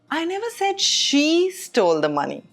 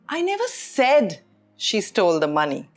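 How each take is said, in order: First: The stress falls on the word she. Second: The stress falls on the word said. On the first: Someone other than her did it. "which means it wasn't her" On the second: It was implied, not said. "which means I didn't say it, but it was implied"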